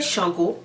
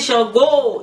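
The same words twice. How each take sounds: First: The name is called out plainly, without emphasis. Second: The name is called out with strong emphasis. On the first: It is simply calling the deity. "that's just a call" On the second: It is an emphasized call that honors the deity. "it's the way of emphasizing calls"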